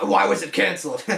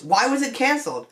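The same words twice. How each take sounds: First: Said in the usual way. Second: High-pitched. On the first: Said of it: "I mean, why, why was it canceled". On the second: Real, not acted. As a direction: voice rising high on the question. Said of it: "My voice got a little high-pitched there".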